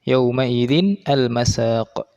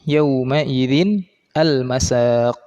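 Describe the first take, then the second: The two takes are said the same way.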